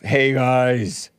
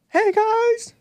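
First: It is said in a deep, gruff voice. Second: It is said high-pitched, like Mickey Mouse.

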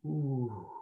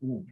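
First: It sounds sensual and relaxed. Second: It sounds tight and stuck.

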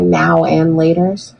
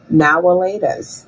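First: The middle word is said in full as 'and'. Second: The middle word is reduced to a short 'a'. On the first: "you call this candy now and laters?" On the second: "The only way that I've heard this candy referred to is now-a-laters"

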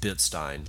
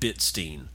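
First: The last syllable rhymes with 'Frankenstein'. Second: The last syllable does not rhyme with 'Frankenstein'. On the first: "I always used to pronounce it Bitstein, like Frankenstein" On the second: "I'm going to say Michael Goldstein at Bitstein"

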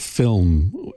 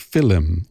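First: The word is said as one syllable. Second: The word is said as two syllables.

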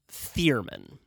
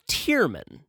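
First: The name begins with a 'th' sound. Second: The name begins with a plain 't' sound. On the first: The speaker calls it wrong. "not Thurman. I know it's spelled with a TH" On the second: The speaker calls it right. "it's Tierman"

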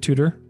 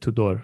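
First: The name is said with an English pronunciation. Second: The name is said with a stronger Romanian pronunciation. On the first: "In English, you could pronounce it Tudor" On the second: "in Romanian, we pronounce it Tudor, like a little bit stronger"

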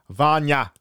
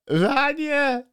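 First: It is said in his normal voice. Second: It is said in a put-on voice.

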